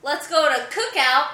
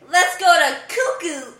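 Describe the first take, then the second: First: Said in the usual way. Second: "cuckoo" with every vowel turned to ooh; ooh language. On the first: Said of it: "if you say". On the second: Shown as a demonstration. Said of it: "I make all vowels into ooh".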